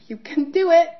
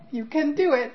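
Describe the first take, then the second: First: Higher, louder call of encouragement; encouraging brother. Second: Encouraging brother. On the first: Late brother Preston cheering his sister on, higher and louder. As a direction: cheer her on from above. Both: Retold or imitated. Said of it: "Preston looking down at me going".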